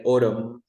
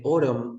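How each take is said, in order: First: Autumn with a silent final N; correct pronunciation. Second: Autumn with the final N sounded; wrong pronunciation. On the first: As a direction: say autumn ending cleanly on the M. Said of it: "No, we say autumn". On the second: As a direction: say autumn wrongly, ending on an audible N. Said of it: "we never say autumn". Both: Shown as a demonstration.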